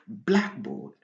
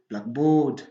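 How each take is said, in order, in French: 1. L'accent tombe sur la première partie, black. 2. L'accent tombe sur la deuxième partie, board. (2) "il est interdit de dire"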